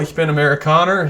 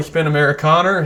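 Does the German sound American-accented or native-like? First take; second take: American-accented; American-accented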